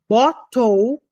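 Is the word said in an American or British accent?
British. British accent, with a clear T sound. "você fala na Inglaterra"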